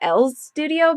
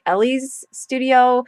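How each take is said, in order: First: The name is said with one syllable. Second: The name is said with two syllables. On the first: It matches how the name is written. "I call it L's Studio because that's what it says" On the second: This is how many other people say it. "a lot of people call the company Ellie's Studio"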